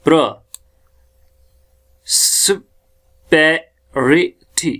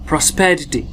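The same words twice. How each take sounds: First: "प्रोस्पेरिटी" very slowly, syllable by syllable; sylabizowanie. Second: Said in the usual way. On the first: Shown as a demonstration. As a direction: stretch "प्रोस्पेरिटी" into separate sounds with pauses. Breaking word into sounds.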